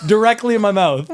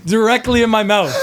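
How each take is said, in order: First: High, loud, still cracking up; helpless laughing repeat. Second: High, loud laughing burst; cracking up while blurting it out; squealing with laughter at the punchline. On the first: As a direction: repeat it through real laughter. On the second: Laughing punchline of fart story. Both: Real, not acted.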